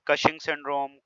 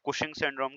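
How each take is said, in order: First: The first vowel sounds like the vowel in cut. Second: The first vowel sounds like the vowel in put. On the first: This is how some people say it. "Some people pronounce it's" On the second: This is how others say it. "कुछ कुशिंग syndrome कहते हैं"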